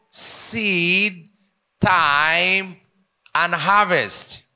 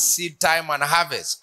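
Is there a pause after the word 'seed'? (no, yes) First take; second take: yes; no. First: There is a pause after each word. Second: The words run together without a pause. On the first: Seed, time and harvest are three separate things. The speaker calls it right. "Between seed, there is a dash, then time, and harvest. Now, to pronounce this, it goes" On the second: Seedtime is one period followed by harvest. The speaker calls it wrong. "everybody reads it as seed time and harvest"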